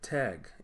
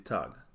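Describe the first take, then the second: First: It is said with a North American accent. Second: It is said with a Jamaican Patois accent.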